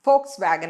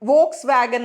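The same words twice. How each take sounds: First: The name begins with an F sound. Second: The name begins with a V sound. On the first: The speaker calls it right. "V അല്ല അവിടെ ഫോ F ആണ് വരുന്നത്" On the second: The speaker calls it wrong. "Volkswagen ന്നാണ് പലപ്പോഴും നമ്മൾ ഇതിനെ പറയാറുള്ളത് അല്ലേ V"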